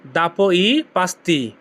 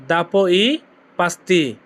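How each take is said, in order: First: "দাপো ই পাস্তি" said slowly as one whole phrase; slow, careful teacher's model of the phrase; slow Italian demo. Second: "দাপো ই" then a pause before "পাস্তি"; chunked repetition with a break after "দাপো ই"; broken into chunks. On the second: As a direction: split the phrase with a clear gap before "পাস্তি". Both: Shown as a demonstration. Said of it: "এর Italian কি হবে?".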